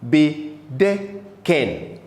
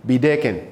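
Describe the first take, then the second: First: "bedecken" slowly split as be-de-cken; "bedecken" drawn out, a gap after each syllable. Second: Said in the usual way. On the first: Shown as a demonstration. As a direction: sound out "bedecken" in three separate syllables. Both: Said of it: "the original form is".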